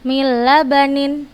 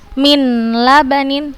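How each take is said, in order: First: The n merges fully into a doubled l. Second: The n is clearly sounded before the l. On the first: The speaker calls it right. "Langsung kita hilangkan huruf nunnya" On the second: The speaker calls it wrong. "bukan min labanin, bukan seperti itu"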